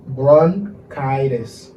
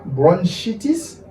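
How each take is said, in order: First: "bronchitis" very slow, "bron-KY-dis"; correct pronunciation. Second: "bronchitis" said "bron-SHEE-tis", slowly; mis-say BRONCHITIS with a French SHEE, rising at the end; wrong pronunciation. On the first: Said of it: "Se bronchitis". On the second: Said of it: "Se pa bronchitis". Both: Shown as a demonstration.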